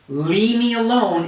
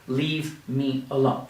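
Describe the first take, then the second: First: The words are blended together smoothly. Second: The words are said separately and fully. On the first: "That's very common" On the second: "instead of"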